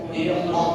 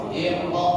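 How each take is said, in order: Both takes have the same delivery.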